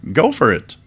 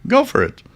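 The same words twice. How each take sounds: First: Said in the usual way. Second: 고음으로 장난스럽게; high mock go-ahead. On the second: Same phrase repeated, very high.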